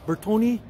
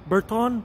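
First: Bertone in three syllables, ber-TOE-nee; sounded final e. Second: Bertone in two syllables, ber-TONE; silent final e. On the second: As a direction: end Bertone on the n sound. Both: Real, not acted. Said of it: "is called Bertone or Bertone".

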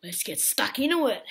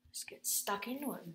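First: Energetic. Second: Quiet. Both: Real, not acted.

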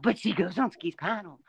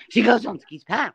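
First: Said in the usual way. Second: Mock gasp.

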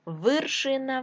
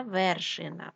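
First: Вершина said as Виршина; short i after В in Вершина; и in first syllable. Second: Said in the usual way. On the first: Shown as a demonstration. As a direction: make Вершина start with вир. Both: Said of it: "тому що верх".

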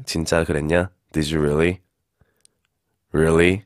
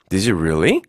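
First: Low-pitched, sceptical "really"; sarcastic disbelief. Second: "Did you really" lifting up on "really"; curious rising question. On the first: Teacher showing how doubt sounds, low sarcastic disbelief. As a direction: drop "really" down low, not believing it. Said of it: "내려서 얘기하면은 조금 비꼬는 느낌". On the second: Teacher showing a curious question, "Did you really" rising at the end. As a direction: ask "Did you really" with a genuine upward lift. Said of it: "이것은 궁금해서 물어보는 것이고". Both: Shown as a demonstration.

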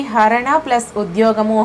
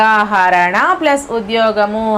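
First: Said in the usual way. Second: హరణ plus ఉద్యోగము said slowly, pausing at plus; slow split. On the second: Shown as a demonstration. Teacher splitting the word for students, slow and deliberate. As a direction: break హరణ plus ఉద్యోగము apart, one piece at a time. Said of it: "విడదీయగా".

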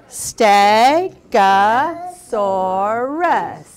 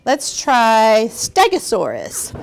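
First: Stegosaurus split slowly into its syllables. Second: Said in the usual way. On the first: Shown as a demonstration. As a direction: sound out Stegosaurus beat by beat.

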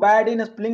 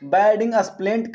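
First: Said in the usual way. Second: "bad in स्प्लेंट", spelling squashed into "splent"; misread spelling. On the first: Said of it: "नहीं पढ़ के". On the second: Shown as a demonstration. Teacher mimicking students who read it wrong, misread as "स्प्लेंट". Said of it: "गलत पढ़ रहे हैं".

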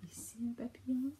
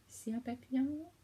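First: Soft hushed repeat; whisper. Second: Said in the usual way. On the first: Real, not acted. The child repeats it to the parent, whispering. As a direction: breathe it out quietly. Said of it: "repeat whispered". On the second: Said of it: "first take spoken".

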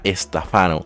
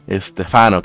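First: Estefano said as es-te-FA-no; stress on FA. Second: Estefano said as es-TÉ-fa-no; stress on TÉ. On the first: Streamer showing Estefano without the accent mark, stress on FA. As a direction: move the stress onto FA in Estefano. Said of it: "sin tilde sería Estefano". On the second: Streamer showing viewers his name Estefano, stress on TÉ. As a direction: stress the second syllable, TE, in Estefano. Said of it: "se pronuncia Estefano". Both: Shown as a demonstration.

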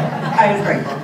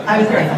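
First: Said again through a laugh; light laughing restatement; laughing repeat. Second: Said in the usual way. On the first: Real, not acted. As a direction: repeat it with a chuckle.

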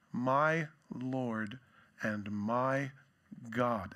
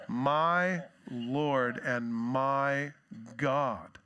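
First: Said in the usual way. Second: Awed and reverent. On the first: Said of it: "he doesn't say it like". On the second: Acted. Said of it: "He's saying".

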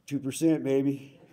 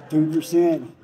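First: Said in the usual way. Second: Higher, louder rallying call; loud cheer. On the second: Real, not acted. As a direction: shout it out to the crowd.

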